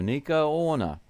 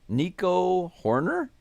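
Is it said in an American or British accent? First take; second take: British; American. First: It is said in a put-on British accent. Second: It is said in a plain American accent.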